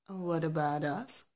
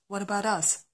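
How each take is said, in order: First: It is said in a calm, gentle tone. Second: It is said in a harsh, aggressive tone. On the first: The speaker is asking respectfully. The speaker calls it right. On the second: The speaker is confronting rudely. The speaker calls it wrong.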